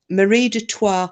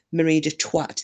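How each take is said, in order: First: "Marie de Troyes" ending on an open "twah", no final t; correct French name. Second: "Marie de Twat" with a hard final t on Twat; mispronounced French name. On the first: Real, not acted. Owning up to a misread name, "Marie de Troyes" said properly as "twah". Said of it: "So I called". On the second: Retold or imitated. Confessing the other night's blunder, "Marie de Twat" with its t sounded. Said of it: "There is a twat in the room".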